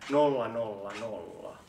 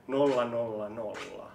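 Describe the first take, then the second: No difference in how they are said.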